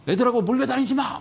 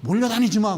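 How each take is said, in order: First: Mock mother's yell, higher and louder; mom yelling. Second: Louder mock scolding shout; mom yelling. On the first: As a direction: scold the kids like a nagging mom. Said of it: "막 이랬잖아요". (엄마가 애들한테 소리치듯 흉내 낸 호통) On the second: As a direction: bark the order like an annoyed mother. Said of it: "그랬죠". (주식 하던 어머니 흉내로 크게 외치는 호통)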